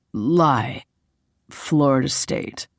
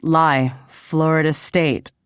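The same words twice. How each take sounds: First: Slightly lowered, laid-back man's answer; lightly voiced male lead. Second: Playful echo of his answer; flirty parroting. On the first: Man answering her college question in a game, lightly voiced. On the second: A narrator's reading. Woman flirtily throwing his answer back at him, parroting. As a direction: parrot it back teasingly, with more lift. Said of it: "I shot him a flirty wink and parroted".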